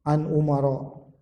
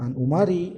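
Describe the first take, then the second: First: The name ends in a short a vowel. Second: The name ends in a short i vowel. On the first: The speaker calls it right. "dari Umar" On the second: The speaker calls it wrong.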